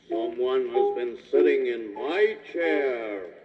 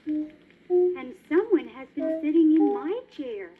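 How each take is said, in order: First: It is said in a great big voice. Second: It is said in a middle-sized voice.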